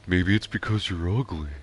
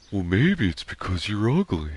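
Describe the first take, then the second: First: Dopey cartoon sidekick attempt; not quite landing the cartoon voice; Patrick. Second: Practiced second go at a dopey cartoon friend; Patrick. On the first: Streamer trying out Patrick's line from the episode, Patrick impression. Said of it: "That's not a good Patrick". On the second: Streamer practicing Patrick's line, closer Patrick impression. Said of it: "Let me practice".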